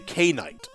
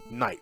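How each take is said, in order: First: The word starts with a clear k sound. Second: The word starts with an n sound, no k. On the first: The speaker calls it wrong. "So you say K night" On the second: The speaker calls it right. "the the K is supposed to be silent"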